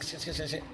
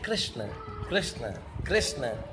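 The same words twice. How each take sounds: First: The name is repeated quickly, one after another. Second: The name is repeated slowly and lovingly, savored. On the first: The name gets stuck halfway in the teeth. The speaker calls it wrong. "हम जरा जल्दी जल्दी बोलिए" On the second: The name is savored like sucking on rock sugar. The speaker calls it right. "तो ऐसे बोलो प्रेम से"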